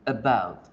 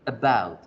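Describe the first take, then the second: Both takes have the same delivery.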